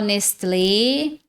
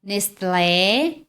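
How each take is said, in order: First: It is said with Brazilian Portuguese pronunciation. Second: It is said with Brazilian Portuguese pronunciation.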